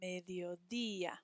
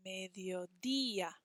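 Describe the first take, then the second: First: Mediodía with the DÍ pushed; Mediodía said once more, showing the accent; stress on the accent. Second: Mediodía with a stronger DÍ; Mediodía modelled with the accent leaned on; stress on the accent. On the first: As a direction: hit the DÍ in Mediodía. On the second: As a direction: land on the DÍ in Mediodía. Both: Shown as a demonstration. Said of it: "Hear how it's a little bit stronger on that accent mark".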